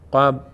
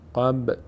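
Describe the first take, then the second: First: The final b is held still with no release. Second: The final b ends with a slight echoing bounce. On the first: The speaker calls it wrong. "بدون قلقله اینطور میشه، بدون لرزش" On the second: The speaker calls it right. "یک کمی میلرزه"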